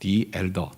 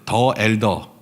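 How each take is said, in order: First: 'The' is said with a long 'ee' vowel. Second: 'The' is said with a short 'uh' vowel. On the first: "발음은 이제 디 엘더겠죠" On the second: "그냥 발음 그대로 할게요"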